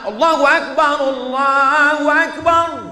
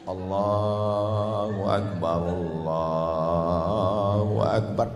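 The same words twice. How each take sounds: First: It is said loudly and forcefully. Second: It is said softly and gently.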